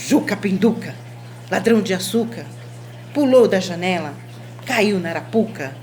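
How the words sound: It is said in an angry, irritated tone. The speaker is annoyed by the story. "com um sentimento de, de raiva"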